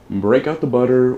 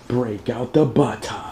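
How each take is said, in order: First: It is said in the speaker's ordinary accent. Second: It is said in a put-on Australian accent.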